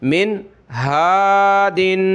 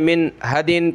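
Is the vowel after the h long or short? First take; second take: long; short. First: The vowel after the h is drawn out long. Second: The vowel after the h is cut short. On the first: The speaker calls it right. "बल्कि खींचना है" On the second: The speaker calls it wrong. "ऐसा नहीं कि आप इस अलिफ को खा जाएं"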